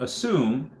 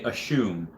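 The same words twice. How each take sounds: First: The middle consonant is a plain s sound. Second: The middle consonant is a sh sound. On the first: "when you say the word assume" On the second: "they pronounce the S's in a really weird way"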